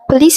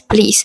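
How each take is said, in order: First: The first vowel is fully pronounced. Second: The first vowel is left out entirely.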